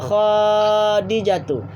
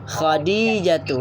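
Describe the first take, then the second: First: A vowel in the name is drawn out long. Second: All vowels in the name are kept short. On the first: The speaker calls it wrong. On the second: The speaker calls it right.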